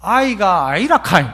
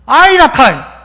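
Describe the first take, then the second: First: 경상도 사투리로; Gyeongsang dialect. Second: Loud falling Gyeongsang 아이라카이; louder Gyeongsang-style insistence; Gyeongsang dialect. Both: Shown as a demonstration. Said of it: "이걸 경상도 말로 하면".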